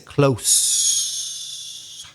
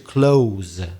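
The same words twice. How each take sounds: First: The word ends with a hissing s sound. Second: The word ends with a buzzing z sound. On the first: It is the name of a kind of street. "the air only comes through the teeth" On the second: It is the verb meaning to shut. "The verb is to close with z sound"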